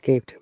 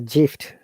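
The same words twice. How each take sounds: First: The word begins with a hard G sound. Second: The word begins with a soft J sound. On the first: "not gift" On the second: "it should be"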